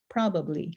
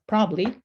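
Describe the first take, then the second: First: It is said slowly with every syllable pronounced. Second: It is said quickly with a syllable skipped. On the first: "taking a bit more time in saying and enunciating the word more fully" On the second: "saying them more rapidly and sort of skipping over a syllable"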